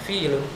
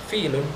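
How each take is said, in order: No difference in how they are said.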